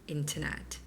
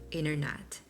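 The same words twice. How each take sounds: First: It is said in a British accent. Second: It is said in an American accent. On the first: "in British accent, it's more like internet" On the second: "In American English, it's like internet"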